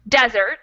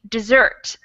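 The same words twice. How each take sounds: First: The stress is on the first syllable. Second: The stress is on the second syllable. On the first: A dry, sandy place. "the stress is on the first syllable" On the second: To abandon something. "stress on the second syllable"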